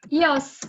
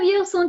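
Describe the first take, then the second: First: The words are merged into one short syllable. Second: Both words are said fully and clearly. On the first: A very informal way to say I am. "you can even make this shorter and say yos" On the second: The standard way to say I am. "instead of eu sunt"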